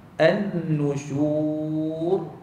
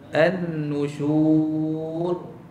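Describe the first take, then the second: No difference in how they are said.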